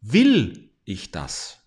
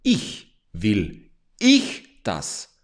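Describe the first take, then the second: First: WILL slow and strongly stressed, the rest falling. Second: „ich“ stretched very slowly and stressed, falling. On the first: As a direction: slowly lean hard on the first word. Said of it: "betonst du das erste Wort". (Betonung auf „Will“, langsam und fallend) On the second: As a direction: dwell on the second word, heavy and slow. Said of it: "nimmst du auch das zweite Wort". (Betonung auf „ich“, sehr langsam gedehnt) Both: Shown as a demonstration.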